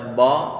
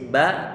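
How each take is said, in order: First: The syllable is pronounced heavy and thick. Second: The syllable is pronounced light and thin. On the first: The speaker calls it wrong. "tidak boleh kita baca" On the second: The speaker calls it right. "yang ini tipis"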